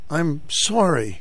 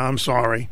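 First: It is said earnestly, with real feeling. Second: It is said offhandedly, without real feeling. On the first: The speaker truly means the apology. The speaker calls it right. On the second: The speaker does not really mean the apology. The speaker calls it wrong.

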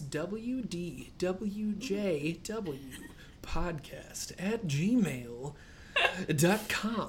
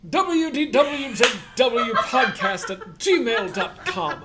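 First: It is said in his normal voice. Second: It is said in a Jumanji movie voice.

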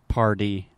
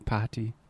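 First: It is said with an American R. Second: It is said with a British accent.

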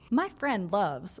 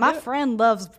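First: It is said in the speaker's usual accent. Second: It is said in a put-on Southern accent.

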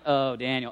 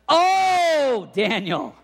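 First: It is said coldly, without affection. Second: It is said warmly, with affection.

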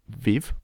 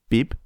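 First: The consonants are said like English v. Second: The consonants are said like a soft b. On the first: The speaker calls it wrong. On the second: The speaker calls it right.

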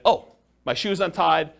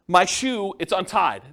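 First: It is said calmly, without concern. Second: It is said with complaining, upset alarm.

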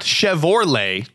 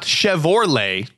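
First: The O vowel comes before the R. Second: The O vowel comes before the R.

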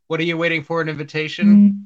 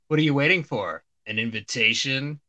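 First: It runs on with no clear pause. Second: There is a clear pause before 'an invitation'.

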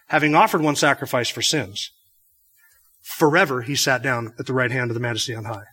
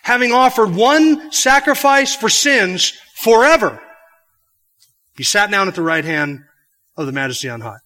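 First: The pause comes before "forever." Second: The pause comes after "forever."

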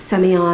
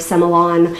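First: Semillon is said in the speaker's own American way. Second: Semillon is said the way local Australians say it.

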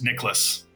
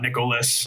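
First: The name is said with two syllables. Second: The name is said with three syllables. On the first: The speaker calls it right. "Two syllables" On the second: The speaker calls it wrong. "not Nicholas"

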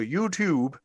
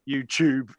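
First: The T is pronounced crisply and clearly. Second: The T sounds like a CH sound. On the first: The speaker calls it right. "I have to really pronounce the T" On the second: The speaker calls it wrong. "like CH"

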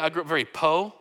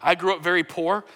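First: The last word is cut short without the r. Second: The last word ends with a full r sound.

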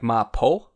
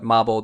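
First: The middle consonant is a P sound. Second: The middle consonant is a B sound. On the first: This is the Chinese way of saying it. "the Chinese pronunciation of it might be like mapo, might be a P sound" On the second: This is the Japanese way of saying it. "in Japanese they call it mabo tofu"

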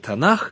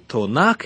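First: It starts with 'ta' and ends in a breathy kh. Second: It starts with 'to' and ends in a hard k. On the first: This is the common everyday form. "как это иногда говорят" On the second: Each syllable matches a part of the canon. "чтобы аббревиатура соответствовала своим частям, то звучание будет таким – Тонак"

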